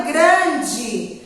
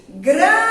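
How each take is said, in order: First: Said in the usual way. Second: "Grande" with a long held GRAN; drawn-out stressed syllable. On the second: Shown as a demonstration. Teacher showing children where she lingers, drawn out. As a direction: stretch the start of "Grande": graaande. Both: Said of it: "Qual que a tia demorou?".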